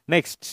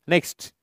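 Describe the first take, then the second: Both takes have the same delivery.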